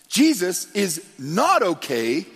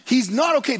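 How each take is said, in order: First: Slow, with "not" drawn out and rising; stress on not. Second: High, loud "He's not okay" with "not" falling hard; emphatic. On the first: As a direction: lean on "not" slowly. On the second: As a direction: hammer it home. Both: Shown as a demonstration.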